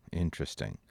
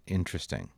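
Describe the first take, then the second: No difference in how they are said.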